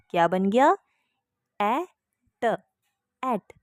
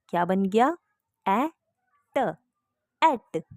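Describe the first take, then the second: No difference in how they are said.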